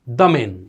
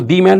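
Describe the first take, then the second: First: The article is pronounced 'thuh' before the consonant. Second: The article is pronounced 'thee' before the consonant. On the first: The speaker calls it right. "कोई कहता है द man" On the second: The speaker calls it wrong. "इसको दी man नहीं बोलेंगे"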